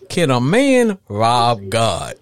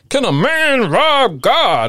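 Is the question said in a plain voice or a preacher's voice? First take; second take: plain; preacher's voice. First: It is said in an ordinary speaking voice. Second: It is said in a dramatic preacher's voice.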